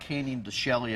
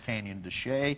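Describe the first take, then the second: First: The name is given a literal, letter-by-letter pronunciation. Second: The name is given its local, established pronunciation. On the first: The speaker calls it wrong. "it looks like Canyon de Chelly if you see it written out. So some people pronounce it like that" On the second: The speaker calls it right. "but it's Canyon de Chelly"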